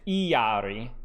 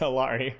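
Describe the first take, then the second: First: The name is said with a Spanish pronunciation. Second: The name is said with an American English pronunciation. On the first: "if it's uh, Spanish, it's Iari"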